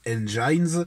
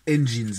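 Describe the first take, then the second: First: The word has a French pronunciation. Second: The word has an English pronunciation. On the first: The speaker calls it wrong. "et pas Engines" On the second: The speaker calls it right. "on prononce Engines"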